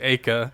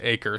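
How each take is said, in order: First: It is said with a British pronunciation. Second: It is said with an American pronunciation. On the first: "if you're in the U K, you would say acre" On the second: "in America we say acre"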